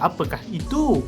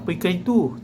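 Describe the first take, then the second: First: The question is said with expressive intonation. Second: The question is said with flat intonation. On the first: The speaker calls it right. "kita ada intonasi kita sendiri bila ianya tanda seru" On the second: The speaker calls it wrong. "tak kita kata"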